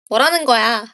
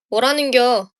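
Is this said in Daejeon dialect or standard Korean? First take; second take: standard; Daejeon dialect. First: It ends with the standard form 'geoya'. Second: It ends with the dialect form 'gyeo'.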